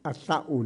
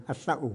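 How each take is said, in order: Both takes have the same delivery.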